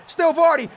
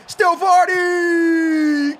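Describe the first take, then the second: First: Excited. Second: Stretched shout. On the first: Pair: building yell. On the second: Pair: stretched yell. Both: Real, not acted.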